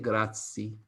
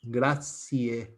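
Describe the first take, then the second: First: The final vowel is dropped. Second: The final vowel is clearly sounded. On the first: "they don't say grazie" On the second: "they pronounce grazie, the final E"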